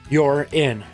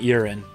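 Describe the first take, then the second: First: The two words are clearly separated. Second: The two words run together as one. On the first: The speaker calls it right. "Let's enunciate a little better here" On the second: The speaker calls it wrong. "not urine"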